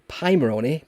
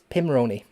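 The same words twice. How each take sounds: First: The first syllable sounds like 'pie'. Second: The first syllable sounds like 'pim'. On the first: The speaker calls it wrong. "I always say Pimoroni because it's a pie" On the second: The speaker calls it right. "it's Pim, like Pims"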